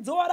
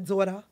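First: It is said in a warm, friendly greeting tone. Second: It is said in a dismissive, brush-off tone. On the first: The listener is being greeted affectionately. "Do it is like, sis, girl, yes" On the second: The listener is being sent away. "it depends on how you say it. Like, I can send you to him"

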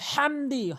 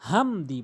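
First: The h comes from the middle of the throat. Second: The h is a plain, light h sound. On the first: The speaker calls it right. "হাটি হলকের মাঝখান থেকে হামদি" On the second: The speaker calls it wrong. "এখানে অধিকাংশ লোক হামদি বলে"

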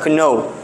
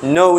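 First: The word begins with a k sound. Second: The word begins with an n sound. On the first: The speaker calls it wrong. "Dili siya kno" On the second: The speaker calls it right. "No dapat. Silent k"

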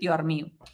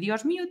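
First: The first word ends in an r sound. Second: The first word ends in an s sound. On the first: "nós cambiamos ese S por un R" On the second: "en vez de Dios mío"

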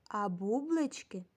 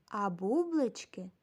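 Both takes have the same delivery.

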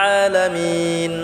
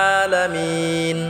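Both takes have the same delivery.

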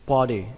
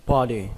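No difference in how they are said.

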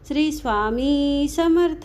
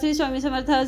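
First: The phrase is said slowly and carefully. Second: The phrase is said quickly and hurriedly. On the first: The recitation is done with full attention. The speaker calls it right. "अगदी सावकाशपणे आपण आपल्या लक्ष देऊन" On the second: The recitation is rushed without attention. The speaker calls it wrong. "अगदी गडबडीने जप करायचा नाही"

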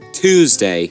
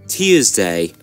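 First: It is said in an American accent. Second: It is said in a British accent. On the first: "And Americans say Tuesday" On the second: "And British, it's Tuesday"

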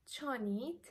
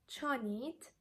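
Both takes have the same delivery.

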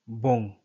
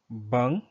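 First: The vowel sounds like a 'u'. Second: The vowel sounds like an 'a'. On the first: "or b, u, ng, bung" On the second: "B, a, ng, bung"

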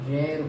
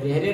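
First: It is one syllable with no final vowel. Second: It has an 'ay' vowel and a final 'ay'. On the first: The speaker calls it right. "इसका उच्चारण रेर होता है" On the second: The speaker calls it wrong. "रेरे नहीं बोलते हैं"

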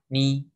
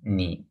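First: The pitch stays high and level. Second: The pitch dips low and then rises. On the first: "four tones" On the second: "four tones"

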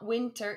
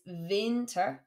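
First: The word is pronounced the English way. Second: The word is pronounced the German way. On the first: The speaker calls it wrong. "It's not winter" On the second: The speaker calls it right. "it's winter"

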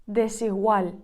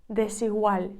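The two takes are said the same way.

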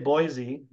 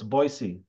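First: The middle consonant is a Z sound. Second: The middle consonant is an S sound. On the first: The speaker calls it wrong. "most people say Boise, but it's actually an S" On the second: The speaker calls it right. "It is actually pronounced with an S, not a Z"

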